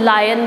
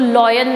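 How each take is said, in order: First: The first vowel sounds like 'lie'. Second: The first vowel sounds like 'law'. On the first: The speaker calls it right. "इसको लायन बोलते हैं" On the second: The speaker calls it wrong. "इसको लॉयन नहीं बोलते"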